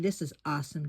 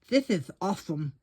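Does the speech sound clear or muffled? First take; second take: clear; muffled. First: It is said clearly. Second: It is said muffled, as with a full mouth.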